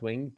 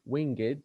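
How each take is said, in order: First: The word is said with one syllable. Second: The word is said with two syllables. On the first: The speaker calls it wrong. "not winged" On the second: The speaker calls it right. "it becomes two syllables"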